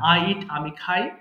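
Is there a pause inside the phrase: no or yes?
yes. The phrase is broken up by a pause. The speaker calls it wrong. "আপনি মাঝখানে pause নেবেন না, তার মানে থামবেন না, ... এইভাবে না"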